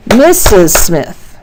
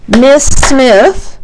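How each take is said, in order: First: Very slow "Missus Smith" in three beats; syllable-count demo. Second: "Miss Smith" higher, in two beats; one emphatic beat per word in "Miss Smith"; syllable-count demo. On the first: Teacher contrasting similar names, slow three-beat "Missus Smith". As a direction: separate both syllables of "Missus". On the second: Teacher contrasting similar names, two-beat "Miss Smith". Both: Shown as a demonstration. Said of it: "hear the differences in the syllables".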